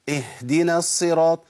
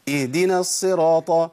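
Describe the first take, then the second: First: The h comes out as loose, excess air. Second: A glottal stop replaces the h sound. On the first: "الخطأ الثاني ان انا اجيب هوا" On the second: "كاني بأبدل الهاء بهمزه"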